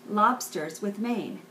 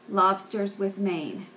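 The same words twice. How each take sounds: Both takes have the same delivery.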